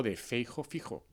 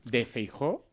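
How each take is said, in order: First: "Feijo" stressed on the first syllable, rhyming into "fijo". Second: "Feijó" stressed on the last syllable; stress on final JÓ. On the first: Offering colleagues the other name, stress on the start of "Feijo". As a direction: say "Feijo" with the accent on FEI. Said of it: "la manera correcta de escribir Feijóo es sin acento". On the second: Asking colleagues which name is right, stress on the end of "Feijó". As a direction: say "Feijó" with the accent on JÓ. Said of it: "con un acento ahí en medio absurdo". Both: Shown as a demonstration.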